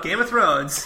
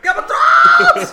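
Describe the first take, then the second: First: Said in the usual way. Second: Very high, loud, stretched-out goofy yell; goofy dumb voice. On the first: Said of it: "that kind of normal voice". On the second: Shown as a demonstration. Player shouting the show's name at the remote, goofy dumb voice. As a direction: shriek it like a giant dope. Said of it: "put on the goofiest accent or dumbest voice".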